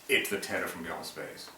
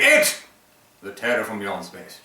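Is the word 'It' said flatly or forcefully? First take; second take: flatly; forcefully. First: The word 'It' is said flatly. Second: The word 'It' is exclaimed forcefully. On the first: The speaker calls it wrong. "you cannot just say It" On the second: The speaker calls it right. "there's an exclamation point"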